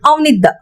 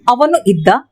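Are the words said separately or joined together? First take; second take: joined; separate. First: The two words are run together as one. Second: The two words are said separately.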